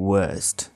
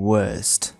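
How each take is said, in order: Both takes have the same delivery.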